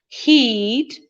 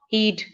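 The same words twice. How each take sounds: First: The vowel is long. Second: The vowel is short. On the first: The speaker calls it right. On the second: The speaker calls it wrong.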